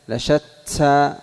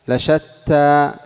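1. تُنطق التاء مع صفير يقرب من صوت السين. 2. التاء نفخية دون أن تُشبه السين.

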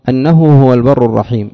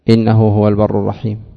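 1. الكلمة الأولى تبدأ بالصوت a. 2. الكلمة الأولى تبدأ بالصوت i. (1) "بأن تفتح الهمزة فاللام تكون مقدرة" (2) "جاز كسر الهمزة فيكون تعليلا بجملة"

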